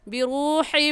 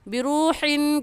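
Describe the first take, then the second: First: The word ends in a nasalized m sound. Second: The word ends in a plain n sound. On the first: The speaker calls it right. "सही होगा बिरूहिम Minh" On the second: The speaker calls it wrong. "बिरूहिन कहना गलत है"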